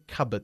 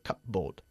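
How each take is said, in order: First: The P sound in the middle is silent. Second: The P sound in the middle is pronounced. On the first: The speaker calls it right. "cupboard contiene una P muda. Se dice cupboard" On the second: The speaker calls it wrong. "no cupboard"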